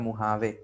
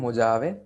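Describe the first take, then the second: First: The middle consonant is an H sound. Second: The middle consonant is a J sound. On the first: The speaker calls it right. "वहां पे pronounce किया जाता है मुहावे" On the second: The speaker calls it wrong. "सो इसको लिखते हैं मोजावे"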